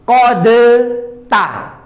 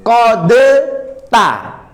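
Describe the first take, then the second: First: The d is pronounced separately before the t. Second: The d is pronounced separately before the t.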